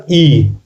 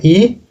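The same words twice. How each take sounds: First: ई drawn out with extra breath; forceful long ई. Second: ई said lightly, less held; a small "ee" sound on ई; light short ई. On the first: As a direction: push the big "ee" on ई. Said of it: "जोर से पढ़ना पड़ता है". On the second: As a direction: demonstrate the lighter ई. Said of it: "इसमें हल्का sound हुए". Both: Shown as a demonstration.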